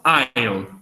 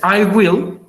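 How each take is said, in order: First: The words are contracted into one short syllable. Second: Both words are said fully and separately. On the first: "más corto" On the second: "es I will"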